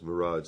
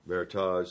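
First: It sounds like the word mirage. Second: It sounds like the word meritage. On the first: "my favorite was Mirage, like it's not really there" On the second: "A lot of people call it Meritage, like a wine"

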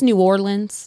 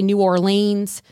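First: The name is pronounced the way locals say it. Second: The name is pronounced the way outsiders say it. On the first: The speaker is from the area. The speaker calls it right. "it's New Orleans" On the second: The speaker is not from the area. The speaker calls it wrong. "Please don't say New Orleans"

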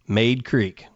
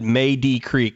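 First: The first word has one syllable, like 'maid'. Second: The first word has two syllables, ending in 'dee'. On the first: The speaker calls it right. "M-A-Y-D-E is Maid Creek" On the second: The speaker calls it wrong. "he said Maydee Creek the other day"

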